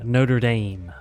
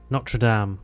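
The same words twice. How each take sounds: First: It is pronounced the American way. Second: It is pronounced in a non-American way.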